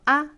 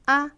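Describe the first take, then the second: The two takes are said the same way.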